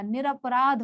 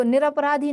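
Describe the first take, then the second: First: निरपराध closed on the consonant ध; correct form. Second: निरपराधी with an added final long "ee"; wrong form. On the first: Teacher giving the right word, निरपराध ending in a bare "dh". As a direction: end निरपराध without any "ee". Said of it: "निरपराध होता है". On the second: Teacher citing the error, निरपराधी ending in "dhee". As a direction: end निरपराधी on धी, a little raised. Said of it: "निरपराधी नहीं होता". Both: Shown as a demonstration.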